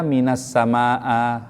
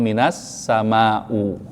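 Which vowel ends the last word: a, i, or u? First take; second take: a; u. First: The last word ends with an a vowel. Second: The last word ends with a u vowel. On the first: "gak boleh dibaca" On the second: "gak boleh dibaca"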